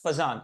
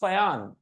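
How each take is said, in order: First: The middle consonant is a 'j' sound. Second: The middle consonant is a 'y' sound. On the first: This is how the name is commonly said in India. The speaker calls it wrong. "It is not pronounced as फजान" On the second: This is the actual pronunciation of the name. The speaker calls it right. "it is फयान"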